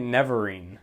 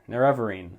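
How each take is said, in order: First: The name begins with a 'nev' sound. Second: The name begins with a 'nair' sound. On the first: The speaker calls it wrong. "I've been pronouncing it Neverine" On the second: The speaker calls it right. "That's how it's pronounced"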